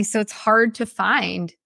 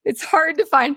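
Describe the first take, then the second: First: Said in the usual way. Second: Choking up through tears; snotty crying. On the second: Real, not acted. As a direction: voice breaking high, crying. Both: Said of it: "I know, ugly cry".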